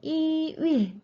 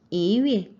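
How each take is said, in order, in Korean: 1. 첫 음절은 높은 평조입니다. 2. 첫 음절은 상승조입니다. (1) "표기는 이 위에 라고 표시가 되어 있지만은" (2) "발음을 하실 때는 이 위에"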